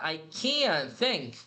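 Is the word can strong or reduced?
strong. The word can is said full and strong.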